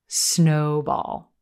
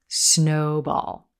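First: The stress falls on the first syllable, 'snow'. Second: The stress falls on the first syllable, 'snow'.

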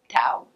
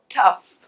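First: It ends in an 'ow' vowel with no 'f'. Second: It ends in a short 'uh' plus 'f' sound. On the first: The speaker calls it wrong. "Tau? No" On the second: The speaker calls it right. "What does it become? Tough"

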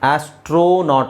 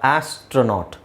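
First: The middle vowel is a full 'o' sound. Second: The middle vowel is a short 'a' sound. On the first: The speaker calls it wrong. "ಆಸ್ಟ್ರೋನಾಟ್ ಅಲ್ಲ" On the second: The speaker calls it right. "ಓ sound ಇಲ್ಲಿ ಅ ಅಂತಾಗುತ್ತೆ"

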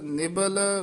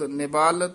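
First: The second vowel is short. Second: The second vowel is long. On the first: The speaker calls it right. "ਸਬਲ ਹੀ ਬੋਲਣਾ ਹੈ" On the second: The speaker calls it wrong. "ਨਿਬਾਲ ਤੇ ਸਬਾਲ ਨਹੀਂ ਕਹਿਣਾ"

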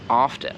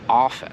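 First: The t sound in the middle is pronounced. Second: The t sound in the middle is silent. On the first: "z czasem ja też na to zmieniłem i zacząłem mówić often" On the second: "oficjalnie się nie wymawia to te"

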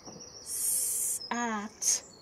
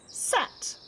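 First: The word is said slowly in separate sounds. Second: The word is said quickly as one sound. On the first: "First, I'll say the sound slowly" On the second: "Let's try and say it quickly"

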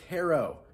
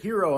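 First: The first syllable sounds like 'hair'. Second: The first syllable does not sound like 'hair'. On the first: "because H-E-R-R, like German hair" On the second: "I hear it Herro all the time"

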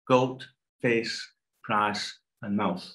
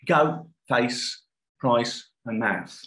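First: The words are said in Multicultural London English. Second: The words are said in a Cockney accent. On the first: "if I then proceed to say this in MLE" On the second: "let me try, first of all, the Cockney accent"

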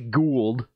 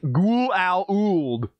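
First: The name sounds like the word ghoul. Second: The name does not sound like ghoul. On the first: The speaker calls it right. "one guy's going to say Gould, which sounds like, okay, ghoulish" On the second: The speaker calls it wrong. "And then somebody will be like"

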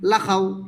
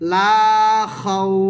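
First: The vowel in 'la' is short. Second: The vowel in 'la' is drawn out long. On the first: The speaker calls it wrong. "এইভাবে বলিলে ভুল হবে" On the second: The speaker calls it right. "বলতে হবে লা খাউ"

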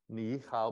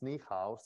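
First: The first syllable has a low dipping tone. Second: The first syllable has a rising tone. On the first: "If you have two third tones in a row" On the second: "the first one becomes a second tone"

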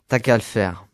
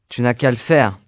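First: Sounds are dropped and run together. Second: Every syllable is pronounced in full.

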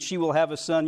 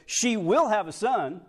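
First: It is read plainly, without added emphasis. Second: It is read forcefully, with strong emphasis. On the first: It is just a routine statement. "when you read it, you just read" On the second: This is really happening. "let's put a little emphasis on it that the angel might have put on"

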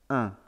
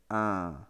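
First: The nasal vowel is held for a normal length. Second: The nasal vowel is held long. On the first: "The nasalized I is pronounced un" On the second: "if it's a long one"

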